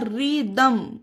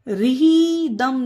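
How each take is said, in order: First: No h sound is heard after the r. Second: An h sound is pronounced after the r. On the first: The speaker calls it right. "ये होगा रिदम" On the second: The speaker calls it wrong. "इसे रिही दम नहीं, रिही नहीं, हा नहीं होगा"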